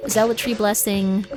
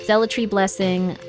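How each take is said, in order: Both takes have the same delivery.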